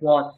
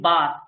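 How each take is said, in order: First: The vowel is a rounded 'o' sound. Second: The vowel is an open 'a' sound. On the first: This is the Odia pronunciation. "ওনারা এনাকে বলে বস" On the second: This is the Bengali pronunciation. "যেমন যে বাস"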